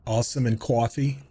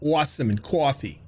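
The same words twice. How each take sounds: First: New York "coffee" with a rounded "aw"; "Awesome and coffee" in a New York accent. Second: "Awesome and coffee" laughed through, a New York accent with a chuckle; laughing repeat. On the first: Telling chat the New York accent slipped through, a New York accent. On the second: Laughing as he repeats his two New York words, a New York accent. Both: Shown as a demonstration. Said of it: "Lost all my New York accent except for two words".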